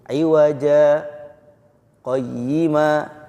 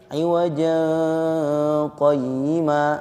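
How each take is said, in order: First: A brief stop comes after the first word. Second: The two words run together without a break. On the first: "karena ini ada saktah kan, jadi dia berhenti dulu" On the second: "kalau nggak ada saktahnya, dia akan menjadi"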